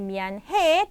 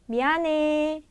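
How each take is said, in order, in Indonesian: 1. Bunyi h jelas diucapkan. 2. Bunyi h dihilangkan sama sekali. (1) "bukannya bian he" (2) "tapi biane"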